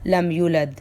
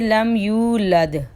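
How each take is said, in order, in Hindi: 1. लंबा u स्वर छोटा करके बोला गया है। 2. लंबा u स्वर साफ़ बोला गया है।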